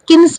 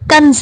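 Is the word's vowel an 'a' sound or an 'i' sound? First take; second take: i; a. First: The vowel is an 'i' sound. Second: The vowel is an 'a' sound. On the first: The speaker calls it wrong. "ये गलत है कि हम इस नाम को किन्ज बुलाते हैं" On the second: The speaker calls it right. "सही अदायगी कंज है"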